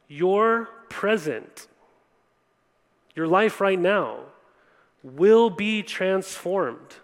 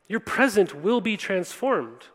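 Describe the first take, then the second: First: "Your present", "your life right now", "will be transformed" each said slowly with long pauses between; slow emphasis. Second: Said in the usual way. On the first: Shown as a demonstration. Preacher promising the congregation change, slow and weighty. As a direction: lay the promise down phrase by phrase, slowly.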